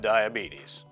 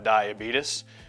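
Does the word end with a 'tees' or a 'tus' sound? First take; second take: tees; tus. First: The word ends with a 'beetees' sound. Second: The word ends with a 'beetus' sound. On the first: The speaker calls it right. "I have diabetes" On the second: The speaker calls it wrong. "not the Beatus, because I don't have diabetes"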